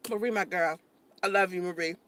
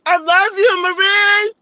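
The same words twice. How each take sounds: First: Low, soft, intimate affection; tender. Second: High, loud declaration of love; excited calling out. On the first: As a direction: drop to a gentle low voice for a dear friend. Same affection, now said tenderly. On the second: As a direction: holler it out to a dear friend. Calling affectionately to viewer Marie. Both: Real, not acted.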